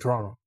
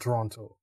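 First: The second T is dropped. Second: The second T is clearly pronounced. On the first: The speaker grew up in the city. "they didn't enunciate the T really. See, it's almost like they're saying Toronto" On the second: The speaker is new to the city. "But not Toronto"

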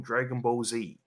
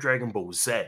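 First: The letter Z is said as 'zee'. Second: The letter Z is said as 'zed'. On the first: This is the usual name the speaker has heard. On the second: This is how English speakers should say it.

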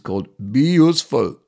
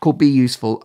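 First: It is spoken in an imitated Austrian accent. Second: It is spoken in the speaker's normal accent.

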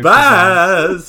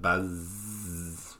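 First: It is said with lots of energy. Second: It is said in a low-energy, chill way.

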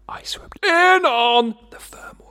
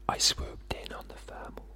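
First: It is said at medium volume. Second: It is said very quietly.

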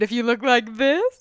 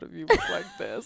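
First: The voice sounds cheerful and smiling. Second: The voice sounds glum and frowning. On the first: It is a good relationship. "she was smiling on the first part" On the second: It is a bad relationship. "she was frowning"

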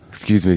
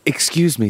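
First: It is said in a plain, understated manner. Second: It is said in a flamboyant, theatrical manner. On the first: "Straight acting"

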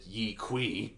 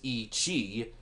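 First: The second word starts with a 'k' sound. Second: The second word starts with a 'ch' sound. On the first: "us dumb Americans pronounce it" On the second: "Its full scientific name is"

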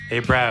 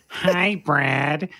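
First: It is said in a deep voice. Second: It is said in a high, nasal voice.

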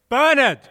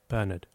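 First: The word is said very loudly. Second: The word is said softly.

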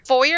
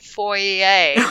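First: The word has its everyday, ordinary pronunciation. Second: The word has a posh, fancy-sounding pronunciation. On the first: This is the usual way people say it. "Foyer is the normal way to say it" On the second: This is how refined people say it. "I've heard fancy people say foyer"

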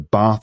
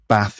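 First: It is said in a southern English accent. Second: It is said in a northern English accent. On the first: "bath in the South" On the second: "bath in the North"

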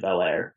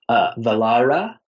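First: The name ends with an 'air' sound. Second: The name ends with a final 'ah' vowel. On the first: It is the casual, Americanized form of the name. "I say Velair, and it's really American" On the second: It is the formal, correct form of the name. "the technical pronunciation, which I feel so pretentious when I say"

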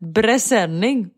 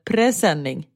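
First: The word begins with a b sound. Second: The word begins with a p sound. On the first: The speaker calls it wrong. "Trodde det hette bräsänning" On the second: The speaker calls it right. "och inte presenning"

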